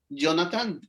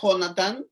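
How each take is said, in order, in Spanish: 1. El nombre empieza con un sonido Y suave. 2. El nombre empieza con una J fuerte y gutural. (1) "se pronuncia en muchas ocasiones Jonathan, como con Y" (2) "se escribe Jonathan"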